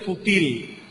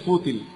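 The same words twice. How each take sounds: First: The stress falls on the last syllable. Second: The stress falls on the first syllable. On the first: The speaker calls it wrong. "no se dice fútil" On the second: The speaker calls it right. "se dice fútil"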